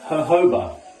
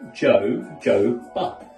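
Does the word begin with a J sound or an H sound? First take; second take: H sound; J sound. First: The word begins with an H sound. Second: The word begins with a J sound. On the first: The speaker calls it right. "it's actually pronounced" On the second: The speaker calls it wrong. "it says"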